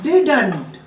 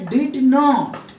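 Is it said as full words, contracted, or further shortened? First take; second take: contracted; full. First: It is said as one two-syllable contracted word. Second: It is said as two full separate words. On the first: "British style में बोलते हैं" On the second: "नॉट लगाया जाता है तो हो जाता है डिड नॉट"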